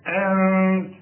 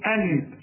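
First: The n is hidden in a nasal sound, no tongue contact. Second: The n is fully articulated with the tongue. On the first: The speaker calls it right. "ما تستعملش فيها لسانك" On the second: The speaker calls it wrong. "ما تضربش لسانك في حلق بقك وتقول أنت"

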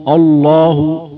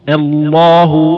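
First: The opening glottal stop is heavy and dark. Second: The opening glottal stop is light and thin. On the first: The speaker calls it wrong. "هنا صارت الهمزة أيضا مفخمة" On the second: The speaker calls it right. "نرقق الهمزة ونفخم اللام"

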